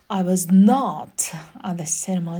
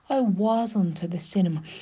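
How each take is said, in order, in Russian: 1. Слово not произносится с сильным ударением. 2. Отрицание редуцируется и без ударения. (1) "и на этот «not» прям сядут" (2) "просто вот, ну, как факт"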